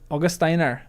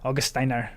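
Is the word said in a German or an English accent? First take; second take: English; German. First: It is said in a plain English accent. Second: It is said in a German accent.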